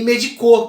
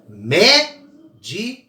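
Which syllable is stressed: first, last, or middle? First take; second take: last; first. First: The stress is on the last syllable. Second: The stress is on the first syllable. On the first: It is not a real word. The speaker calls it wrong. "que nem existe" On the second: It means a doctor. The speaker calls it right. "a mais forte é o mé"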